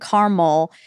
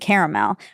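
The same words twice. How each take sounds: First: It is said with two syllables, Midwestern style. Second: It is said with three syllables, Southern style.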